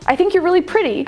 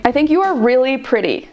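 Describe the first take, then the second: First: Pretty said with a friendly upward lilt; friend-vibes rising compliment. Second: Pretty said with the tune dropping at the end; flirty downward inflection; falling flirty tone. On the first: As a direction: compliment with the tune going up like a friend. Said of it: "my inflection at the end goes down". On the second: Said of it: "I say". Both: Shown as a demonstration.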